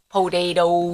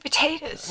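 First: The word ends with a fully pronounced '-toes' syllable. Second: The word ends with a clipped, reduced final syllable. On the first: This imitates an odd way someone else says it. "Dustin's dad says it weird" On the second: This is the way locals say it. "We say potatoes"

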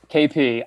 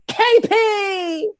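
First: It is said in the speaker's normal voice. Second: It is said as an impression of Ron.

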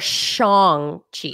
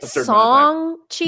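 First: The name starts with a sh sound. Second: The name starts with a plain s sound. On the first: The speaker calls it wrong. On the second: The speaker calls it right.

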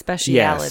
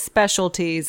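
First: The word has an added syllable before '-ties'. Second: The word has no added syllable before '-ties'. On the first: The speaker calls it wrong. "he pronounced it specialities" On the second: The speaker calls it right. "Clearly, it's specialties"

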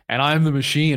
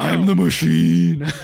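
First: The phrase is said at a normal, quick pace. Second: The phrase is stretched out slowly and dramatically.

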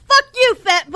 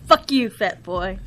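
First: It is said forcefully, from the chest. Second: It is said weakly, without force.

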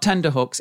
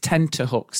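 First: The consonant after the n is a d sound. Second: The consonant after the n is a t sound. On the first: The speaker calls it wrong. "it's not tender hooks" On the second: The speaker calls it right. "it's tenter hooks"

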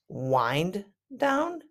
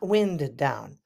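First: The vowel in 'wind' is a long I. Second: The vowel in 'wind' is a short I. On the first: The speaker calls it right. "Wind down means to relax" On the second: The speaker calls it wrong. "not wind down"

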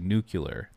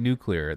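First: Nuclear is pronounced the way Michigan people say it. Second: Nuclear is pronounced the common, standard way. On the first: "people from Michigan... they say nuclear" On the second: "Instead of saying nuclear"

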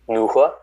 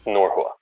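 First: It is said with a northern, H-like sound. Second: It is said with a southern, more pronounced R.

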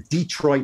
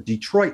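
First: The stress is on the first syllable. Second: The stress is on the second syllable.

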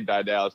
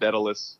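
First: The name is said like 'Di Dallas'. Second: The name is said like 'Daedalus'. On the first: This is the speaker's own habitual pronunciation. "I always say Di Dallas" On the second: This is how other people pronounce it. "People said Daedalus"

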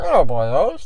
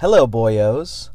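First: It is said in a Jar Jar Binks voice. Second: It is said in a normal reading voice.

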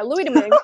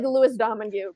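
First: The surname is said unlike its spelling. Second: The surname is said the way it is spelled. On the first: The speaker calls it right. "which is how you pronounce that third goalie's name" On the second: The speaker calls it wrong. "it looks like"

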